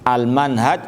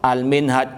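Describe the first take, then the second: First: The vowel before the final j is short. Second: The vowel before the final j is long. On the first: "Kalau al-manhaj tidak pakai alif" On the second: "Kalau minhaj ada alif mamdudanya sebelum jim"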